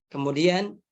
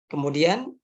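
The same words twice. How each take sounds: Both takes have the same delivery.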